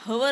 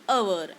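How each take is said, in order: First: The word begins with an h sound. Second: The word begins with a vowel sound. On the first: The speaker calls it wrong. "हवर न म्हणता" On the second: The speaker calls it right. "अवर असं म्हणतो"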